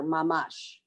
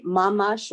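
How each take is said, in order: First: MaMASH with the stress on MASH; mamash, weight on the final syllable; stress on second syllable. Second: MAmash with the stress on MA; mamash, weight on the opening syllable; stress on first syllable. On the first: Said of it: "the first syllable". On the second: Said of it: "do you put the accent". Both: Shown as a demonstration.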